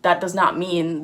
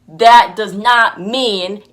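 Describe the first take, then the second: First: It is said at a normal volume. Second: It is said at a louder volume.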